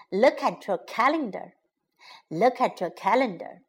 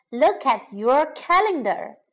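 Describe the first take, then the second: First: "Look at your calendar" run together briskly; quick, fluent repeat of "Look at your calendar"; natural connected speed. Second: "Look at your calendar" with each word set apart; measured, separated teaching delivery of "Look at your calendar"; careful word by word. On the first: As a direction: say "Look at your calendar" fast, words linked. Teacher repeats phrase at natural speed. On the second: Teacher models phrase slowly, then naturally. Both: Shown as a demonstration.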